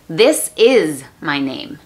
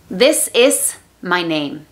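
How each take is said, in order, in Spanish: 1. La s en 'is' es una z sonora. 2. La s en 'is' es una s silbante. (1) "el verbo is se pronuncia como si la S fuera Z" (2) "un error muy común es utilizar el sonido S, la S clara, para todo"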